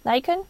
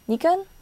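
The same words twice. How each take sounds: First: Nikon is said with an English pronunciation. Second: Nikon is said with a non-English pronunciation.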